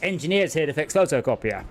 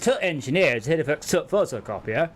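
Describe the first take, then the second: First: The word 'the' is left out entirely. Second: The word 'the' is reduced to a 't' sound. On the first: This is how people say it in the speaker's area. "where I am, it's" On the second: This is how people say it further north. "North of me, it's"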